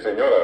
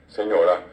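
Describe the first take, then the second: First: Said in the usual way. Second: "señora" stressed on the last A, as señorá; stress on final A. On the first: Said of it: "y es señora". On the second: Shown as a demonstration. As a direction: say "señora" the Guaraní way, RA strong. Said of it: "marcado en la A final".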